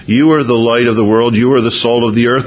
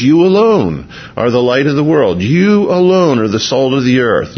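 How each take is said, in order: First: Said in the usual way. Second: "alone" leaned on, held and falling; stress on alone. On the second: Shown as a demonstration. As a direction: press the word "alone" to show the emphasis. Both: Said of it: "it's emphatic in the Greek".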